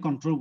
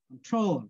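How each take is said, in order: First: The stress is on the first syllable. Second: The stress is on the second syllable. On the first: The speaker calls it wrong. "Normally বলি control" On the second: The speaker calls it right. "Troll বলার সময় কি আমি জোরে বলছি"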